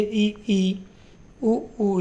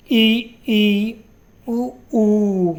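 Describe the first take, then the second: First: ई ई उ ऊ said softer, as if trying them out; teacher inviting students to try ई and ऊ; quiet vowel demo. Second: ई ई उ ऊ called out louder, clearly held; teacher modelling ई and ऊ loudly for students; loud vowel demo. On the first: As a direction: try the vowels ई, उ, ऊ gently yourself. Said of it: "इनके उच्चारण आप करके देखिए". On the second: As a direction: proclaim each closed vowel ई, उ, ऊ. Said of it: "जैसे". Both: Shown as a demonstration.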